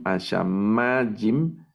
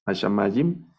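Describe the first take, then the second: First: Ashamayim very slow, long stressed MA; acento en MA. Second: Ashamayim at normal speed, stress on MA; acento en MA. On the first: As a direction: spell out Ashamayim by syllables, holding MA. (Ashamayim muy lento, con el acento en MA) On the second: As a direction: say Ashamayim in one go, leaning on MA. (Ashamayim de corrido, con el acento en MA) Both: Shown as a demonstration. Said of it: "en esta sílaba de la mem".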